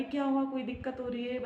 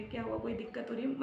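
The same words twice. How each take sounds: First: Said in the usual way. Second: Softer, hushed worried question; husband anxiously repeating his question, hushed; worried asking. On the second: Retold or imitated. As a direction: ask it again quietly, scared for her. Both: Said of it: "वो डर गए".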